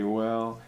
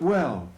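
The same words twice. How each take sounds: First: The word is said hesitantly and uncertainly. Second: The word is said confidently and brightly. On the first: The speaker calls it wrong. "sort of hesitantly" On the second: The speaker calls it right. "but well"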